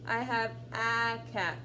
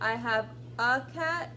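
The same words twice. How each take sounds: First: The word 'a' is an open 'ah'. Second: The word 'a' is not an open 'ah'. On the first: The speaker calls it wrong. "you're not going to say, I have a cat. That doesn't make sense" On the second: The speaker calls it right. "those are the two sounds that you can use"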